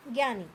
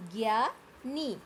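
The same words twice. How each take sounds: First: Said in the usual way. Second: ज्ञानी drawn out slowly as "gyaa-nee"; slow teaching demo of ज्ञानी, both syllables held; slow sounded-out pronunciation. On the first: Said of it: "ज्ञ से क्या बना?". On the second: Shown as a demonstration. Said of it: "तो हम क्या उच्चारण करेंगे".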